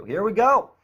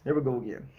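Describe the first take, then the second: First: High and loud, pumped up; excited. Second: Said in the usual way. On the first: Real, not acted. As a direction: hype yourself up to start.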